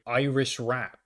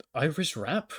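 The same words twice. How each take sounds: First: Said in the usual way. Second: "Irish rap" higher, as a puzzled question; questioning repeat. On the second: Retold or imitated. Professor repeats his answer, puzzled.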